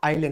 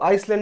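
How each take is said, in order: First: The word has no s sound before the l. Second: The word has an s sound before the l. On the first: The speaker calls it right. "वो आइलैंड होता है" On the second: The speaker calls it wrong. "वो आइसलैंड नहीं होकर के"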